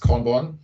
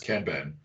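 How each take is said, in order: First: The word has an American-style pronunciation. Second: The word has a European-style pronunciation. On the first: "when you listen to like some people in the States, it's Kanban" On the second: "When you listen to people in Europe, it's Kanban"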